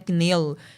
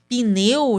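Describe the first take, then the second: First: The p and n join with no vowel between. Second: An extra i vowel separates the p and n. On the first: This is how the written form suggests it be said. "que a gente deveria falar sem o i" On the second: This is how people commonly say it in speech. "a gente está enfiando um i aí"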